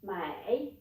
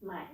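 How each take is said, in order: First: MAI dipping low, then rising; falling-rising tone. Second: MAI kept short and low; low third tone. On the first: Teacher showing how not to say buy, falling-rising MAI. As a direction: draw out mai through a full fall and rise. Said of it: "you don't need to say". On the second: Teacher showing how to say buy, low short MAI. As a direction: drop mai low without any rise. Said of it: "you just say". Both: Shown as a demonstration.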